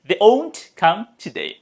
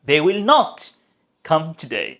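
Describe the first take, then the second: First: The negative is contracted into one short word. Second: The negative is said in full as two words. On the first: A plain statement that they are not coming. "Simple দেখেন" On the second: An emphatic statement that they certainly won't come. "জোর করে বলছি আমরা, ... full form they will not"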